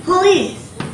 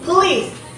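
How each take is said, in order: First: The word has a vowel between the P and the L. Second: The word has a vowel between the P and the L.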